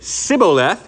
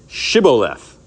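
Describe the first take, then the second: First: The word begins with an s sound. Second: The word begins with a sh sound. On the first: The speaker calls it wrong. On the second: The speaker calls it right.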